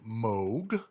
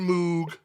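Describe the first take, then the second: First: The vowel is not the spelled 'oo' sound. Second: The vowel is the 'oo' sound the spelling suggests. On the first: This is how the inventor said it. "he pronounced it Moog" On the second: This is how most people say it. "with the M O O, most people say Moog"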